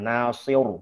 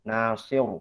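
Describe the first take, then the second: No difference in how they are said.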